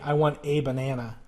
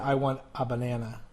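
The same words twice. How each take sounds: First: The article is a full 'ay' sound. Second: The article is a reduced 'uh' sound. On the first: The speaker calls it wrong. "Just like you wouldn't say" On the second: The speaker calls it right. "you would probably say"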